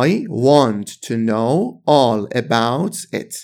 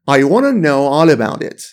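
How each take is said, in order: First: Slow, every word separate in "I want to know all about it"; slow careful reading. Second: Wanna run together, "I wanna know all about it" blended smoothly; fast connected speech. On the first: Teacher models the full slow form for students, slow and careful. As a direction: spell it out slowly for learners, want to fully said. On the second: Teacher shows students the fast spoken form, blended smoothly. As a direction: say it the quick casual way, squeezing want to into wanna. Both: Shown as a demonstration.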